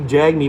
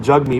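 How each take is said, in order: First: The first vowel sounds like the one in 'bag'. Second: The first vowel sounds like the one in 'bug'. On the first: The speaker calls it wrong. "you want to say jag meat" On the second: The speaker calls it right. "but it's actually jug meat"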